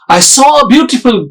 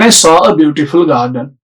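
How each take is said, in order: First: It is said in a lively, excited tone. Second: It is said in a flat, unexcited tone. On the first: Something surprising is being shared. The speaker calls it right. "You need to be natural" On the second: Nothing surprising is being shared. The speaker calls it wrong. "If I speak like this, ... So it cannot create that excitement in audience"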